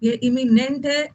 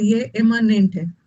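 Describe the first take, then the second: First: Slow "इमिनेंट" with an i in the middle; careful contrast. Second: Slow "इमनेंट" said e-ma-nent, with an a in the middle; careful contrast. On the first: Teacher warning students against confusion, slow careful "इमिनेंट", i-mi-nent. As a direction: spell out "इमिनेंट" by ear, i-mi-nent. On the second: Teacher warning students against confusion, slow careful "इमनेंट", e-ma-nent. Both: Shown as a demonstration. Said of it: "ये word से मत confuse होना".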